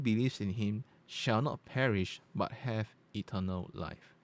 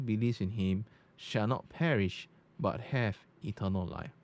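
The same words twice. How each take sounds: First: The voice has a natural, unaltered tone. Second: The voice has a dark, bass-heavy tone. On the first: "let's change to natural" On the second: "Now you go to dark"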